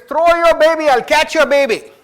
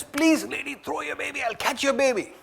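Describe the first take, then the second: First: High, loud call up to the window; calling up to her. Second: Higher, softer, urgent plea; pleading. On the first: Man in the crowd calls up to the mother at the burning window, high loud call. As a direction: shout it up to her: throw it, I'll catch it. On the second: Man pleads with the mother on the third floor, soft high plea. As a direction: beg her quietly to let go of the baby. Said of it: "He says". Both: Retold or imitated.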